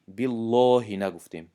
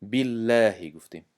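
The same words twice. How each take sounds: First: بالله with a heavy, emphatic lam; wrong heavy lam. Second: بالله with a light, thin lam. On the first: (بالله با لام پر (نادرست)) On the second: (بالله با لام نازک) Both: Shown as a demonstration.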